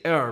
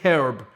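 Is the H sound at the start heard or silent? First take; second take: silent; heard. First: The word begins without any H sound. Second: The word begins with an audible H sound. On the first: "You guys tend to say herb" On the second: "We say herb with the H"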